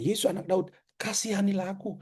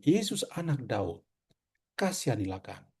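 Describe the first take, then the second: First: High, hushed plea with Daud and kasihanilah lifted; pleading beggar. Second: Soft, low plea fading on kasihanilah; patient pleading. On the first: Preacher voices the blind man's plea, high and soft. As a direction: beg upward, softly. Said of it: "maka dia bilang". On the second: Preacher voices the patient blind man's quiet plea. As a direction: murmur the request, humbly. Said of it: "dia memohon". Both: Retold or imitated.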